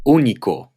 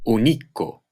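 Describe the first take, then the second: First: Único said Ú-ni-co; acute-marked stress. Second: Único wrongly said u-NI-co; misplaced stress. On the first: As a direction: stress the first syllable of Único. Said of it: "Here are some examples". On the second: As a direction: stress the middle syllable of único. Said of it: "If they didn't have the acute". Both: Shown as a demonstration.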